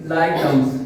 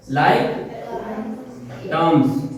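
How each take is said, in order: First: Said in the usual way. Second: like and terms said as two separate words with a long pause between; slow, spaced-out teaching. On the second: Shown as a demonstration. Teacher drilling students on a new term, slowly word by word. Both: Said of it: "like terms बोलते हैं".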